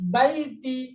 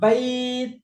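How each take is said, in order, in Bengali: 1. 'ai' টা তাড়াতাড়ি বলা হয়, '-ti' দিয়ে শেষ হয়। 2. 'ai' টা টেনে বলা হয়, খালি 't' দিয়ে শেষ হয়। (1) "এমনি নরমাল পড়লে" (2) "এক আলিফ টেনে পড়তে হবে"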